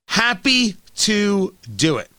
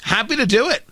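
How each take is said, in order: First: Slow, savoring sarcasm; slow, drawn out. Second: Said in the usual way. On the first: Shown as a demonstration. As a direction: drag it out smugly. Repeats phrase, second slowed.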